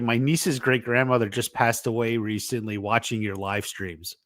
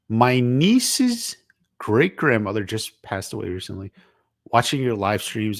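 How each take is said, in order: First: It runs on without a break after 'recently'. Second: There is a break after 'recently'.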